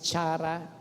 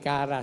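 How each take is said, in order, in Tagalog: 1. Nagsisimula ang salita sa tunog na 'ch'. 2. Nagsisimula ang salita sa tunog na 'k'. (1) "That is chara" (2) "mas marami po, nagpo-pronounce po niya ng kara"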